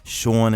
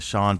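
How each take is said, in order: First: It is said with a strong New York accent. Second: It is said with a toned-down neutral accent. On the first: "or Sean" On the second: "instead of Sean"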